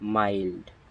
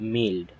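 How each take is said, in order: First: The vowel is an 'eye' sound. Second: The vowel is a short 'i' sound. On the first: The speaker calls it right. "এর উচ্চারণ হবে মাইল্ড" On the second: The speaker calls it wrong. "It's not মিল্ড"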